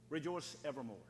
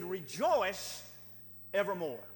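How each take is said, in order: First: Rejoice evermore said lower and softer; quiet repeat. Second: Rejoice evermore boomed out, louder; proclaimed text. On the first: Preacher quietly repeating the verse to himself. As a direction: savor the words quietly. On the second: Preacher booming the verse to his congregation. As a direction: declaim Rejoice evermore to the church. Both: Shown as a demonstration. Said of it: "Just those two words".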